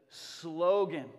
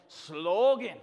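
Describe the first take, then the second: First: Said in the usual way. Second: "Slogan" with long, loud Scottish O. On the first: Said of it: "what we've turned into slogan". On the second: Shown as a demonstration. Preacher giving a Scottish lesson, "Slogan" with drawn-out Scottish O. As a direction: stretch the O in "Slogan" Scottish-style, clip the end. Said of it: "That's your first Scottish lesson".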